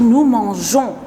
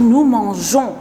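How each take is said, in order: First: The g is a soft zh sound. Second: The same.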